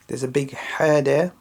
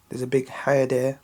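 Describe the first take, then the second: No difference in how they are said.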